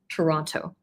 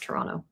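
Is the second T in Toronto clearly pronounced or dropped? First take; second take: pronounced; dropped. First: The second T is clearly pronounced. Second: The second T is dropped. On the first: The speaker is from outside Toronto. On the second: The speaker is from Toronto.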